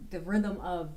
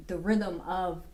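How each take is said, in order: Both takes have the same delivery.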